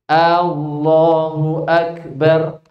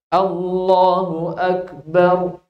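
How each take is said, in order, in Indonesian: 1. Vokal pembuka dipanjangkan. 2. Tidak ada vokal yang dipanjangkan secara tidak biasa. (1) "Allahnya A-nya panjang" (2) "Tapi Allahu Akbar"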